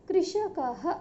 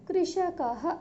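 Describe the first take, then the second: Both takes have the same delivery.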